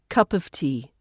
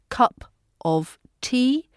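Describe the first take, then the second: First: The word 'of' is reduced to a schwa. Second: The word 'of' is said with a full vowel.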